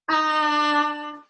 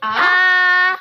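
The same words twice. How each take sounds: First: The pitch stays level and flat. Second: The pitch rises from low to high. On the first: "Nada yang pertama itu adalah nada yang datar" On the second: "Nada kedua itu nadanya naik"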